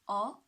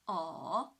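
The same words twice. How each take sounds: First: The pitch rises from mid to high. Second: The pitch dips low, then rises. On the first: "the second tone, right, from three to five" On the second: "the third tone, from two to one to four"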